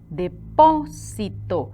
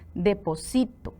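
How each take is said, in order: First: The stress is on the syllable 'po'. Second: The stress is on the syllable 'si'. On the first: A deposit or storage place. "¿Ven dónde llevan la sílaba tónica?" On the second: I am depositing something now. "vean dónde lleva la sílaba tónica, en sí"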